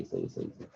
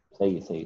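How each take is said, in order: First: Soft unvoiced murmur of सही, सही, सही trailing away; whisper. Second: Said in the usual way. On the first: Real, not acted. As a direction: breathe the word सही to yourself, no voice. Teacher murmuring approval to himself. (फुसफुसाकर सही सही)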